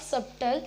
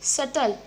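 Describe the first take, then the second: First: The b sound is pronounced in the middle. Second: The b sound is left out entirely. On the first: The speaker calls it wrong. "It's not सब्टल" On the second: The speaker calls it right. "बी होता है वो silent होता है"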